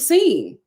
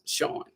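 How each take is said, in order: First: The name starts with an 's' sound. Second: The name starts with a 'sh' sound. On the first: The name is read as it is spelled. The speaker calls it wrong. "his name was spelled S E A N, and I called him Scene" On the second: The name is said as its owner says it. The speaker calls it right. "but my name is pronounced Sean"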